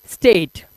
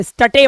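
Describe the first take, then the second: First: स्टेट in one syllable with silent e; स्टेट with long 'ay', ending on t; correct reading. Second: स्टटे mis-read as 'sta-tay'; स्टटे in two literal syllables; wrong reading. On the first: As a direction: say स्टेट to rhyme with 'late'. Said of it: "last के ई को नहीं पढ़ना". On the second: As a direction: sound the final e in स्टटे. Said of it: "स्टटे मत पढ़ना". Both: Shown as a demonstration.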